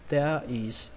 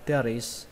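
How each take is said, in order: First: The two words are said separately. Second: The two words are run together.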